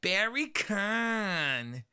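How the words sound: It is said in an American accent.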